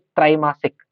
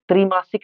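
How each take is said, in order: First: The first syllable has a long vowel. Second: The first syllable has a short vowel. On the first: The speaker calls it right. "जो पहला अक्षर होता है वो दीर्घ में हो जाता है" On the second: The speaker calls it wrong. "नहीं"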